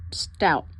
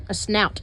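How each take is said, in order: First: "stout" said with a t after the s, falling; "stout" spoken as a confident slip for snout; wrong word. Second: "snout" said with a clear sn at the start, stressed; "A snout" as a self-correction, stressing "snout"; corrected word. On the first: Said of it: "Do bears have a stout?". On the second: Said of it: "It's a snout". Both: Real, not acted.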